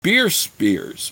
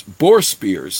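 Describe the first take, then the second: First: "Beer spears" with beer where boar was meant; reading slip, "Beer" for "boar"; misread slip. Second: Said in the usual way. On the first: A narrator's reading. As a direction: stumble on "Beer" before the fix.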